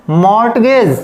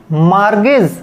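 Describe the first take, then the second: First: "मॉर्टगेज" with the t sounded; wrong pronunciation. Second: "मार्गेज" with a silent t; correct pronunciation. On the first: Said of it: "लेकिन वो तो wrong हो गया". ("मॉर्टगेज" गलत उच्चारण, t बोलकर) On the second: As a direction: say "मार्गेज" with no t, the right way. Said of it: "right pronunciation करना है". ("मार्गेज" सही उच्चारण, t मौन) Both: Shown as a demonstration.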